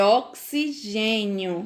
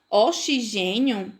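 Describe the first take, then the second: First: "oxigênio" slowly as ok-si-GÊ-nio; "oxigênio" drawn out, x as k plus s. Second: "Oxigênio" as o-shi-GÊ-nio; "Oxigênio" with sh in place of ks; wrong X sound. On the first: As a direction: correct it to "oxigênio" with a clear ks. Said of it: "É oxigênio". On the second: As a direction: show the mistake, "Oxigênio" with sh. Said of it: "Oxigênio não existe". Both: Shown as a demonstration.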